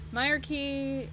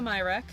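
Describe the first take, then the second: First: The name ends in a kee sound. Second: The name ends in a plain k sound. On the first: "Apparently it's Myrkey, according to this guide" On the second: "am I pronouncing that right?"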